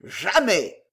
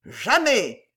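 First: Melodramatic exclamation with a falling end; theatrical. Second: Raised, melodramatic refusal; theatrical. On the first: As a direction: refuse like a stage hero. (exclamation théâtrale) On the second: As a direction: declaim it like a stage actor. (refus théâtral) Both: A narrator's reading. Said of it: "s'écria monsieur Jingle d'un air théâtral".

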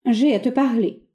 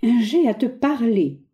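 First: Each word set apart, slower; very distinct. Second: Slow, bossy, every syllable of "J'ai à te parler" hammered; scanning each syllable. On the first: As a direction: say it clearly and firmly. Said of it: "bien nettement". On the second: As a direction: beat out each syllable with authority. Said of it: "autoritaire, scandant chaque syllabe". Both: Acted.

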